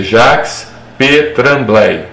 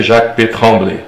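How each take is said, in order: First: Jacques P. Tremblay slowly, as written, JAKS PÊ TRAM-BLEI; Portuguese reading. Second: Jacques P. Tremblay run together as JAK PÊ TROM-BLÊ; French pronunciation. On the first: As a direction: sound out Jacques with its S, Tremblay with tapped R. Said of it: "falando assim em português". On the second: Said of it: "Mas quando você pronuncia". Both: Shown as a demonstration.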